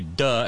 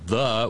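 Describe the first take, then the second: First: The word begins with a hard d sound. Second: The word begins with a soft th sound. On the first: "we say duh, as in da Bronx" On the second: "in New York we don't say the"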